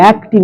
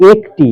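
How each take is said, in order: First: একটি said with open ae, "aekti"; wrong vowel in একটি. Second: একটি said with pure e, "ek-ti"; closed e in একটি. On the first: Teacher shows what not to say, open ae in একটি. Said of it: "একটি নয়". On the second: Teacher corrects the pupil, pure e in একটি. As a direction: keep the first vowel of একটি a closed e. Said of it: "একটি, একার ক". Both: Shown as a demonstration.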